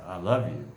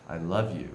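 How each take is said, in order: First: Love declared with disdain; scornful, not meaning it; disdainful. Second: Sincere, affectionate declaration; mean it, with love; loving. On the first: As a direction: say it so they feel scorned. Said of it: "you might feel disdain". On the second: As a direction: say it so they feel loved. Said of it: "you might feel love". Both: Shown as a demonstration.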